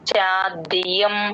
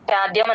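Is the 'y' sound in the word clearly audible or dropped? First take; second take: audible; dropped. First: The 'y' sound is clearly heard. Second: The 'y' sound is dropped or blurred. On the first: The speaker calls it right. "ఆ యా వినిపించాలి" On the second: The speaker calls it wrong. "చాద్యం అనేస్తారు"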